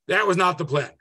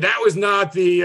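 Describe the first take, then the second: First: Said in the usual way. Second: "was" pushed slow and loud, mid-sentence; stress on WAS. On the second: Shown as a demonstration. Lecturer hammering "was" to make his point to the class. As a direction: lean hard on "was" as you drag it out.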